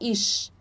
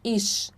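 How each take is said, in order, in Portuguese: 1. Termina com um som de "sh". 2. Termina com um som de "sh".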